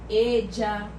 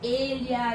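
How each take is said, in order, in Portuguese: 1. O ll é pronunciado como um som de dj. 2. O ll é pronunciado como um lh palatal. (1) "alguns países da América usa como se fosse um D J" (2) "na Espanha eles gostam muito de usar com som de L H"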